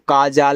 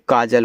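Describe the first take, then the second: First: The second syllable has a long 'aa' vowel. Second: The second syllable has a short 'a' vowel. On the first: The speaker calls it wrong. "काजाल नहीं" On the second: The speaker calls it right. "काजल होता है"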